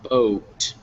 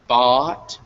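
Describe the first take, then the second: First: The vowel glides like the oh in boat. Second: The vowel is a short, pure ah sound. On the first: The speaker calls it wrong. "a kind of a double constricted vowel sound" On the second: The speaker calls it right. "bought, not boat"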